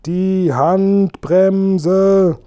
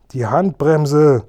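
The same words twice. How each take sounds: First: Much higher, louder, very drawn-out shout; yelled louder. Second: Louder and higher, slow call over engine noise; shouting. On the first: Kasperl and Seppel shout again so he finally hears, very slow loud yell. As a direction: stretch the shout out, fully yelling. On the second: Kasperl and Seppel yell to the driver over the engine, loud shout. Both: A narrator's reading. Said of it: "riefen Kasperl und Seppel".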